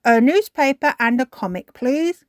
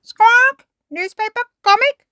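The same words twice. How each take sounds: First: Raised, loud character voice; polite storybook request. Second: Very high, loud squawked words; parrot mimicry. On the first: The dogs order from the shop, raised polite request. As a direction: ask for it with a polite lift. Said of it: "Grandad Dog and Danny Dog said". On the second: Polly copies the dogs' order, high parrot squawk. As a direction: squawk each item back like a bird. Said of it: "Polly Parrot copied". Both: A narrator's reading.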